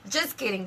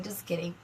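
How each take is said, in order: First: Laughing it off. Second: Soft, lower, trailing off; quiet. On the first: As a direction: giggle through it. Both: Real, not acted.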